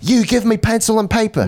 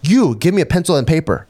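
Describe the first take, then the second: First: It is said in an imitated British accent. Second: It is said in the speaker's plain accent. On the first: The speaker calls it right. "he said" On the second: The speaker calls it wrong. "He didn't say it like that"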